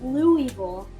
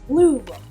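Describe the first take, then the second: First: It is said the way outsiders pronounce it. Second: It is said the way locals pronounce it. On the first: The speaker is not from the city. The speaker calls it wrong. "don't say Louisville" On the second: The speaker lives in the city. The speaker calls it right. "It's Louisville. If you live here, that's good. You know how to say it"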